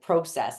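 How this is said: The word is said in a Canadian accent. "his Canadian uh, accents, like process"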